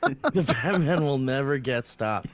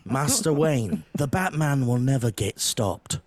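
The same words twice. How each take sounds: First: Lower, grave English butler line; British butler retake. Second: Lower, grave English butler voice; British butler. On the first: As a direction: deliver it like the loyal butler once more. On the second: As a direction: reassure master Wayne like a loyal butler. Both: Retold or imitated. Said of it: "is that better?".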